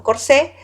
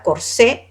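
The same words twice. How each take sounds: First: Corsé again, open é and no t. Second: Corsé said cor-SÉ with no final t. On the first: Teacher settling on the right corsé. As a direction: say corsé ending on a clean é. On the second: Teacher showing students the Spanish corsé. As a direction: end corsé open on é. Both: Shown as a demonstration. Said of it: "no corset, sino corsé".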